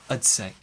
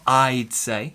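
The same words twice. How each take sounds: First: 'I'd' is reduced to a weak 'ud' sound. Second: 'I'd' is said in full with a clear vowel. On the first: The speaker calls it right. "but I'd say" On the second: The speaker calls it wrong. "Not I'd say"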